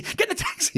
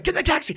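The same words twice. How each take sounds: First: High unvoiced whispered urging; mouthed whisper. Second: Higher, hurried urging from a friend; urgent signal. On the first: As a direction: mouth it silently through the window. Friend mouthing from taxi. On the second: Retold or imitated. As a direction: wave him into the cab, quickly.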